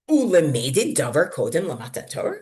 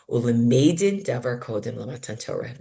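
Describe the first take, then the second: First: It is said as a challenging question. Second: It is said as a plain statement. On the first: Should you really learn law from before the Torah was given? "Other people read it as a question, an attack on the suggestion" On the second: You can learn law from before the Torah was given. "some people read it as, and that shows me you can learn something halachic"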